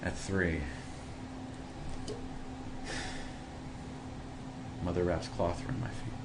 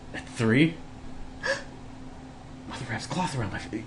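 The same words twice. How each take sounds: First: The line is read in a sad tone. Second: The line is read in an excited tone. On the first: "if I want to make this sound sad" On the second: "if I want to make it sound excited"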